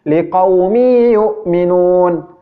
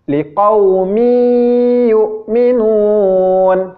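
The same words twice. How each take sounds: First: The nasal hum is rushed and cut short. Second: The nasal hum is held long, unhurried. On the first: The speaker calls it wrong. "cara membaca idgham bi gunnah yang salah ... dia tergesa-gesa" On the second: The speaker calls it right. "membaca dengung yang ditahan cara membacanya seperti ini"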